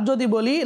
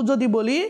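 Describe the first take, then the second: The two takes are said the same way.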